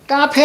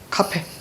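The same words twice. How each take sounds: First: The first consonant is tense and unaspirated. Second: The first consonant is aspirated with a puff. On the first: The speaker calls it wrong. "카페 아니고요" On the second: The speaker calls it right. "된소리에 사용하지 않습니다"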